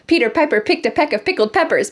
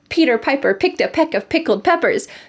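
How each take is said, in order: First: It is said at a fast speed. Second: It is said at a moderate speed. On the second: "Let's say it again"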